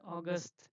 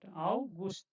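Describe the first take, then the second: First: The first vowel sounds like 'aw'. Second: The first vowel sounds like 'ow'. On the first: The speaker calls it wrong. "Don't read as August" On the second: The speaker calls it right. "this is Au Au"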